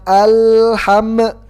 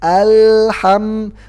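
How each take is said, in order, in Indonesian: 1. Huruf l dan m dilepas dengan pantulan. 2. Huruf l dan m ditahan tanpa dipantulkan. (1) "Jangan alham... itu kurang pas" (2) "tapi ditahan"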